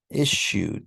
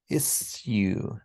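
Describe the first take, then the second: First: The middle consonant is a 'sh' sound. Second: The middle is an 's' followed by 'y'. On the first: This is the modern form. "saya becomes sh" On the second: This is the older form. "at some point in English, it wasn't, it was"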